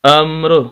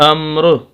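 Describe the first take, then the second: First: The word ends abruptly on a bare r. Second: The same.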